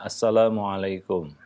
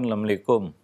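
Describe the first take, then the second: First: The greeting is said fully, every sound clear. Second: The greeting is shortened, with sounds clipped. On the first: The speaker calls it right. "ucapkan ucapan yang sempurna" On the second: The speaker calls it wrong. "karena terbiasa menyingkat-nyingkat"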